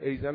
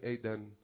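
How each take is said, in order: First: The middle consonant is a z sound. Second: The middle consonant is a d sound. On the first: This is the local way of saying it. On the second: This is the European way of saying it.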